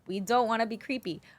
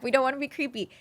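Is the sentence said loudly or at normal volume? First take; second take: normal; loud. First: It is said at normal volume. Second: It is said louder, with more force.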